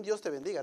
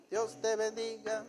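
First: Said in the usual way. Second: Dios te bendiga drawn out slowly, a bit higher, syrupy; mock blessing. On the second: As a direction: stretch out Dios te bendiga like a sugary jab. Repeated with mock sweetness.

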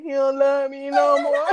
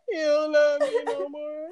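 First: Higher, louder tearful wail quoted from a film; imitating Yvette. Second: Slow, higher, laughing mock sob; imitating Yvette crying. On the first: Mimicking Yvette's heartbroken line for listeners, mock crying. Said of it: "that time I was like Yvette". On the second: Replaying Yvette's crying line in the car, mock sob. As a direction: drag out a tearful wail while laughing. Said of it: "that episode when Baby Boy Yvette was in that car".

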